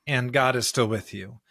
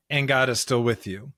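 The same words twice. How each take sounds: The two takes are said the same way.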